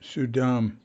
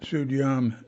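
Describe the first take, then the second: First: No y sound comes before the final vowel. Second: A y sound comes right before the final vowel. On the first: The speaker calls it right. "It's S U Y D A M, Sudam" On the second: The speaker calls it wrong. "Oops, mispronounced it. Not Sudyam"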